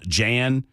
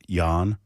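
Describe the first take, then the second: First: The name is read the way it is spelled. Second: The name is said the way its owner says it. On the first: "apparently his name is spelled Jan" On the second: "but they pronounce it Jan"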